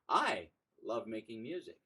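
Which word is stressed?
I. The word "I" carries the stress. "I emphasize a different word within that four word phrase"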